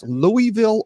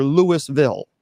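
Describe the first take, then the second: First: Louisville as LOO-ee-vil, no S sound; Louie-ville with silent S. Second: Louisville as LOO-iss-vil; Louis-ville with sounded S. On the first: Host repeats the quiz, Louisville as LOO-ee-vil. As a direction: make the first part of Louisville sound like Louie. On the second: Host repeats the quiz, Louisville as LOO-iss-vil. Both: Shown as a demonstration. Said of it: "is it pronounced Louisville or".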